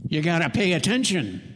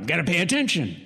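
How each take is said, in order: First: Gruff boss. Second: A hint of a gruff drill sergeant; a little gruff. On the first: Retold or imitated. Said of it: "That'd be what Bobby'd say". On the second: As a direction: bark it lightly like a tired foreman. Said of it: "A little gruff".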